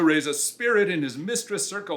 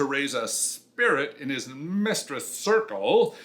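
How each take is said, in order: First: The line is read in a plain, neutral way. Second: The line is read in a suggestive, innuendo-laden way. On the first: The words have only their literal meaning. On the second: The words carry a sexual double meaning.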